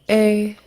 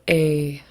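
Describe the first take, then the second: First: The vowel is said on a high pitch. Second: The vowel is said on a low pitch. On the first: "And high tone" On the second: "Long and low"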